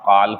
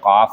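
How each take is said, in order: First: The L is sounded. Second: The L is silent. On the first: The speaker calls it wrong. "काल्फ नहीं होता" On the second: The speaker calls it right. "काफ होता"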